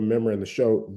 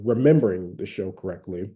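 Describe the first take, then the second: First: Quick Southern slip, "remembering" clipped to "membering"; Southern accent. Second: Said in the usual way. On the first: Real, not acted. Recalling a TV show to listeners, in a Southern accent. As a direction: say "remembering" as Southern "membering", first syllable dropped. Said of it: "say something in a Southern accent". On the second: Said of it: "if y'all hear me say something".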